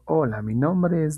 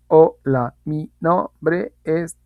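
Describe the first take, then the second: First: It flows smoothly with no breaks. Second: It is broken up by hesitant pauses. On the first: The speaker calls it right. "Ahí no hubo cortes, ahí hubo la fluidez" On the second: The speaker calls it wrong. "A diferencia de decir"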